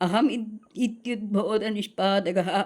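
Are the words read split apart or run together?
joined. The words are read joined together without breaks. "அப்படியே படிக்கலாம்"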